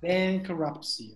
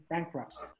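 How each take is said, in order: First: "bankruptcy" stretched out slowly, part by part; slow pronunciation model. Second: Said in the usual way. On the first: Shown as a demonstration. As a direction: spell out the sounds of "bankruptcy" slowly. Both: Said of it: "Make sure you have the pronunciation".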